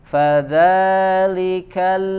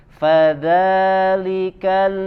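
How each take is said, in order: Both takes have the same delivery.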